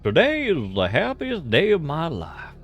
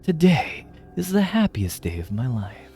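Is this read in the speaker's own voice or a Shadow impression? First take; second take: own voice; Shadow impression. First: It is read in the speaker's own voice. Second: It is read in a Shadow the Hedgehog voice.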